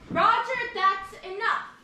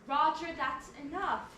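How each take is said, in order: First: It is shouted loudly in an angry tone. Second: It is said in a gentle, nice tone.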